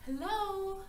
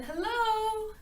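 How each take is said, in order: First: Lightly raised, questioning call through the door; a small, unsure hello to an empty cottage; hesitant knock-and-call; tentative hello. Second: Higher, louder hello called into the house; calling out a second time, louder. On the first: Goldilocks calls at the door. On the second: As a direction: call out so someone inside hears. Calls again, peeking inside. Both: A narrator's reading.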